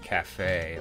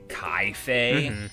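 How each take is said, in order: First: The first syllable has a plain 'ka' sound. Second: The first syllable has an 'eye' vowel sound. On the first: "I'm Cafe" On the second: "as some people say"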